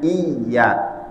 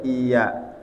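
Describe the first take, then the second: First: The y sound is pressed and held double. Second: The y sound is short and single. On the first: The speaker calls it right. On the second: The speaker calls it wrong. "Itu enggak boleh"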